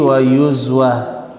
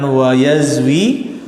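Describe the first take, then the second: First: The verb is read with 'u' then 'a'. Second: The verb is read with 'a' then 'i'. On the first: The speaker calls it right. "tapi wa yuzwa" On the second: The speaker calls it wrong. "bukan wa yazwi"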